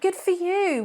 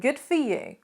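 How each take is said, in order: First: It sounds warm and sincerely pleased. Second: It sounds sarcastic and not sincerely pleased. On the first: The speaker is truly happy for the listener. "you could say that" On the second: The speaker is not really happy for the listener. "if you say it with the wrong intonation, it actually sounds a little bit more sarcastic"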